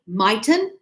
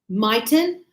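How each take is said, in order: First: It is said as one contracted word. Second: The same.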